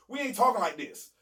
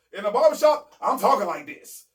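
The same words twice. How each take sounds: First: Said in the usual way. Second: Barbershop voice. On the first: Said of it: "I'm amongst a bunch of Caucasians". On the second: Shown as a demonstration. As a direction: turn it up like you're holding court in a barbershop.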